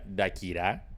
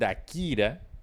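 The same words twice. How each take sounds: First: The stress is on the last syllable. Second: The stress is on the second syllable. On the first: "Si fuera aguda, se llamaría" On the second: "si no lleva tilde, es Dakira, porque sería eh, grave"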